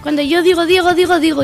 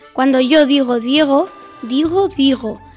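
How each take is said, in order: First: It is said at a fast speed. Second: It is said at a slow speed.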